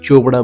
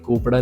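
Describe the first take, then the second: First: The name begins with a ch sound. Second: The name begins with a k sound. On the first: The speaker calls it right. "ਇਹਨੂੰ ਚੋਪੜਾ ਬੋਲਦੇ" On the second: The speaker calls it wrong. "ਇਹ ਕੋਪੜਾ ਨਹੀਂ ਹੁੰਦਾ"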